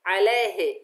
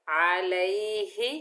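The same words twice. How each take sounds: First: अलैहि clipped quickly to alahe and louder; short, swallowed अलैहि, falling; wrong alahe. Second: अलैहि drawn out slowly with every vowel full, alaihi; slow careful अलैहि, ending in a rise; correct alaihi. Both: Shown as a demonstration. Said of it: "अलैहि बिल्कुल नहीं पढ़ना".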